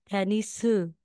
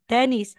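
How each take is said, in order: First: It is said with a Korean accent, added vowel. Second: It is said with a plain English accent.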